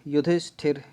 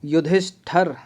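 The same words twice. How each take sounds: First: युधिष्ठिर ending in -ṭhir; correct last vowel. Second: युधिष्ठर ending in -ṭhar; wrong last vowel. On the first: Teacher testing spellings, युधिष्ठिर with -ṭhir. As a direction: put a short i before the last r of युधिष्ठिर. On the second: Teacher testing spellings, युधिष्ठर with -ṭhar. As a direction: put an a before the last r of युधिष्ठर. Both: Shown as a demonstration. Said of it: "ये तो गलत लग रहा है".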